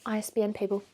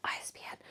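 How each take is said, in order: First: Said in the usual way. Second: The letters I S B N breathed as a bare whisper. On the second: Real, not acted. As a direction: whisper I S B N as a sly afterthought. Whispered repeat of her tip.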